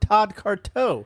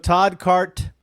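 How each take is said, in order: First: The surname ends with an added 'o' sound. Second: The surname ends without any added vowel sound. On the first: The speaker calls it wrong. "this whole time we've been saying" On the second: The speaker calls it right. "there's no O in the end"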